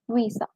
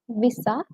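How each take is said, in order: First: The first vowel is drawn out long. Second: The first vowel is short. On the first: The speaker calls it right. "the I there, it needs to be a bit elongated" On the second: The speaker calls it wrong. "Most people mispronounce it as visa"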